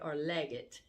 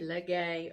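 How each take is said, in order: First: The name ends in a closed 'get' sound. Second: The name ends in an open 'gay' sound. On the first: This is how the name may be said elsewhere. "but Leggett, or you're from West Virginia" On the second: This is how the name is said locally in Louisiana. "I would love to say Legay"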